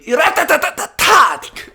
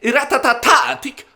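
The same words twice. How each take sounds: First: "Iratatatatatatic" rattled out with an extra ta, building to a shout; one ta too many. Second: "Iratatatatatatic" rattled off high with one fewer ta; corrected run of tas. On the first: Host signs off the podcast, "Iratatatatatatic" shouted with one ta too many. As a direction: overshoot the run of tas in "Iratatatatatatic", landing loud. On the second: Host redoes the podcast name, "Iratatatatatatic" high with one fewer ta. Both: Real, not acted. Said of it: "That was one too many tas".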